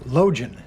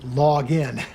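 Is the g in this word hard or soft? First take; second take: soft; hard. First: The g is soft, as in logical. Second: The g is hard, as in log. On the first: The speaker calls it wrong. "I kept referring to Login" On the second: The speaker calls it right. "as opposed to login"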